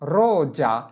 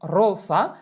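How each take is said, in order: First: The middle consonant is a buzzing z sound. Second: The middle consonant is a hissing s sound. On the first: The speaker calls it right. "এর উচ্চারণ হবে কি রোজা" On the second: The speaker calls it wrong. "এখানে এটা উচ্চারণ করা যাবে না যে রোসা"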